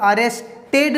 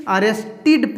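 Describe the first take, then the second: First: अरेस्टेड ending in a "-ted" with an e sound; wrong -ed pronunciation. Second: अरेस्टेड ending in "-tid", short i. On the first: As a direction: say अरेस्टेड with "ted" at the end, as in "bed". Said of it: "अरेस्टेड नहीं". (अरेस्टेड के अंत में "टेड", ए की आवाज़ के साथ) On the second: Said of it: "अरेस्टेड पढ़ेंगे". (अरेस्टेड के अंत में "टिड", छोटी इ के साथ) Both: Shown as a demonstration.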